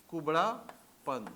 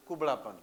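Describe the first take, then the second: First: कुबड़ापन very slow, split before पन; syllable by syllable. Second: Said in the usual way. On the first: Shown as a demonstration. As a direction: dictate कुबड़ापन in two drawn-out parts. Dictating the Hindi term.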